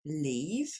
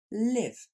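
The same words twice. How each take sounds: First: "Leave" with a long ee, rising. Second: "live" with a short i, falling. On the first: Teacher repeats the contrast, "Leave" with a long ee. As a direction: stretch the ee in "Leave". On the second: Teacher repeats the contrast, "live" with a short i. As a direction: clip the i in "live". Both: Shown as a demonstration. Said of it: "on répète la différence".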